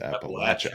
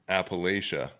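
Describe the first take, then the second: First: The middle syllable sounds like 'latch'. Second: The middle syllable sounds like 'lay'. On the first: The speaker calls it right. "we learned ... that it's Appalachia" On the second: The speaker calls it wrong. "we thought it was Appalachia"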